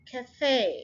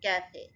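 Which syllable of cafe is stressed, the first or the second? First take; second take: second; first. First: The stress is on the second syllable. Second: The stress is on the first syllable. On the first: The speaker calls it right. "फे के ऊपर आपने stress करना है" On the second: The speaker calls it wrong. "Cafe नहीं, जैसे हम कहते थे कैफे"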